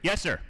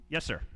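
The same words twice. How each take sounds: First: Snapping to attention. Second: Said in the usual way. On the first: Retold or imitated. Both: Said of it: "I snapped to it".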